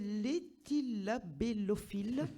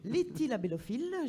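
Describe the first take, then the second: First: The word is said at a slower pace. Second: The word is said at a faster pace.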